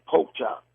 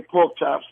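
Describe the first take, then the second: First: "pork chop" as "poke chop", no R and no final S; Southern pronunciation. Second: "pork chops" with a K closing "pork" and the final S sounded; New York pronunciation. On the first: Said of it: "they say pork chop". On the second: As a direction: say "pork chops" fully, K and S in place. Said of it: "we say pork chops". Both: Shown as a demonstration.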